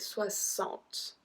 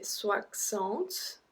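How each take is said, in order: First: The middle consonant sounds like s. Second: The middle consonant sounds like ks. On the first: The speaker calls it right. "I say soixante. The X become a S" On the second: The speaker calls it wrong. "I do not say soixante"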